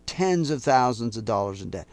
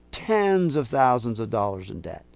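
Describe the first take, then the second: No difference in how they are said.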